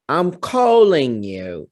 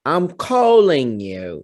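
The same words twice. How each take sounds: First: The voice is pitched high. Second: The same.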